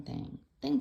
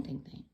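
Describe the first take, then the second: First: "thing, thing" sung out high with a playful rise; "thing, thing" tossed up high, playful and teasing; sing-song thing. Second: "thing, thing" dropped low and much softer; "thing, thing" trailing off to almost nothing; fading thing. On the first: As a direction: bounce "thing, thing" up high like a little tune. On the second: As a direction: let "thing, thing" fade away under the breath. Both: Pretend. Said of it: "Why not do the thing?".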